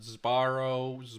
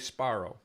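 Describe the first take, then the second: First: The word begins with a buzzing z before b. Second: A hissing s runs into a voiceless p. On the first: "they make this into like a Z" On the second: "Sparrow with a with a voiceless"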